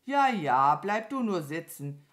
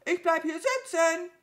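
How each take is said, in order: First: Lautes „Ja, ja“, dann ruhiger; gelassenes Abwinken. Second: Sehr hoher, lauter Krähenruf; trotziges Nachrufen. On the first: Acted. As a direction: unbeeindruckt zurückgeben. Mama Mu antwortet gelassen. (gelassen abwinkend) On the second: A narrator's reading. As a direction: aus der Ferne hinterherkrähen. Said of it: "rief die Krähe ihr nach". (laut und trotzig rufend)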